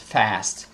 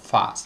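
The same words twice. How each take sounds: First: It is said with an American vowel. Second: It is said with a British vowel. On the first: "in American English, we pronounce, or they pronounce, fast" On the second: "instead of fast"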